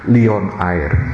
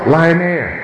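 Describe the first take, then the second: First: Lion is read with a 'lee-on' sound. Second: Lion is said with an English 'lie-on' sound. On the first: Nobody actually says the name this way. "tidak ada orang yang bilang Leon Air" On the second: Everyone says the name this way, in English. "semuanya ngomongnya apa? Lion Air"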